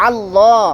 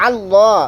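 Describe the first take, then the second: Both takes have the same delivery.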